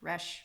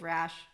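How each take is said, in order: First: The vowel sounds like the one in 'resh'. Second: The vowel sounds like the one in 'rash'. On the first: The speaker calls it right. "Resh, not Rash" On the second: The speaker calls it wrong. "not Rash"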